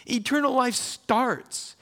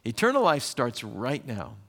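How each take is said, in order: First: Eternal life starts said much higher and slowly, leaning on Eternal; emphatic payoff. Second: Said in the usual way. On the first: Real, not acted. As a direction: land "Eternal life starts" as the big reveal, high and drawn out. Preacher answers his own question.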